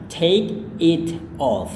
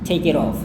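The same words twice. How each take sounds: First: The phrase is said at a slower pace. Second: The phrase is said at a faster pace. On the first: "Cara Anda lafalkannya adalah" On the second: "Cara Anda lafalkan dengan lebih cepat adalah"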